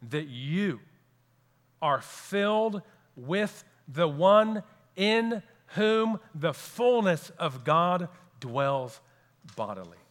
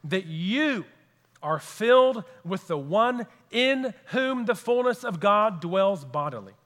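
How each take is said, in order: First: Said again slowly, each word weighed; slow emphasis. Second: Said in the usual way. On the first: Shown as a demonstration. Preacher repeating to the congregation, slow deliberate emphasis. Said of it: "I'll say it again for emphasis". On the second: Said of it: "I'll say it again".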